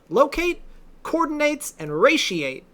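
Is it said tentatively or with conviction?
conviction. It is said firmly, with more conviction.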